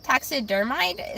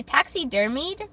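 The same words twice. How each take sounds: First: Taxidermide with the ending rhyming with "hide"; tentative pronunciation. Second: Taxidermied with the ending said "meed"; tentative pronunciation. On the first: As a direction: sound out Taxidermide slowly, "-mide" at the end. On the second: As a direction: say taxidermied as "taxi-der-MEED", unsure. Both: Shown as a demonstration. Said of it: "Is that how you pronounce it?".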